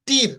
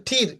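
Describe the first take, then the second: First: Said in the usual way. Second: ঠির with a puffed T; ঠির, air released after the T; aspirated T. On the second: Shown as a demonstration. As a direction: say ঠির as "t-heer". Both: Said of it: "মানে ঠির".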